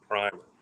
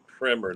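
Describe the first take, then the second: First: Primer is said with the plain, unclassy pronunciation. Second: Primer is said with the classy pronunciation. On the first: The speaker is unrefined. The speaker calls it wrong. "not primer" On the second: The speaker is refined. The speaker calls it right. "classy people pronounce it primer"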